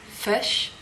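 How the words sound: It is said in a New Zealand accent.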